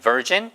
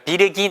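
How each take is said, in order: First: The middle consonant is a soft j sound. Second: The middle consonant is a hard g sound. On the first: The speaker calls it right. "virgin이에요" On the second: The speaker calls it wrong. "비르긴 아니에요"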